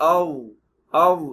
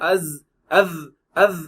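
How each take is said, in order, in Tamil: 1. இந்த மெய்யொலி அழுத்தமாகவும் கனமாகவும் இருக்கிறது. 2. இந்த மெய்யொலி சாதாரண S போல ஒலிக்கிறது. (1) "ஆவ் ஆவ் அப்படி சொல்லணும்" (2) "அஸ் அஸ் அஸ் அப்படிம்பாங்க. அதெல்லாம் தப்பு"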